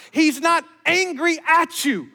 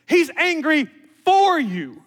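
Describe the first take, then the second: First: "at" punched, slow and high; stress on AT. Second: "for" punched and drawn out; slow down and land hard on "for"; stress on FOR. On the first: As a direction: lean hard on "at", then fall. Preacher contrasts at with for. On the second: Preacher contrasts for with at. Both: Real, not acted.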